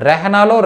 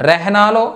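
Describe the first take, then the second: No difference in how they are said.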